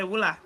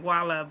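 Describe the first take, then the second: First: The name is said the Nimba County way. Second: The name is said in the local way. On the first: This is how people in another county say it. "if you go to Nimba County, they'll say Wula" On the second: This is how people here say the name. "I was born and raised in um here, so I say Walla"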